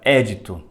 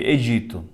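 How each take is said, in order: First: The stress is on the first syllable. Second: The stress is on the second syllable. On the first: This is the older form from last century's translations. "tinha um acento agudo no E, então ficava édito" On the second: This is the form used in newer translations. "as novas versões, chama de edito"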